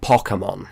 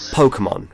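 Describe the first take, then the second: First: Pokemon with a short, open O, like "pocket"; weird Pokemon pronunciation. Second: Pokemon with a long OH in the first syllable; usual Western pronunciation. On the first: Retold or imitated. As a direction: say Pokemon as POCK-uh-mon. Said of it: "pronounced Pokemon weird". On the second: Shown as a demonstration. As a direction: say Pokemon as POH-kuh-mon. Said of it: "we all say Pokemon".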